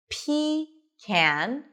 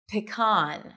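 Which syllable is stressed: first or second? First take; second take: first; second. First: The stress is on the first syllable. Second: The stress is on the second syllable. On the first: "where the stress is on the first syllable" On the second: "p, short I, p, p, unstressed, con, with an Oz and father"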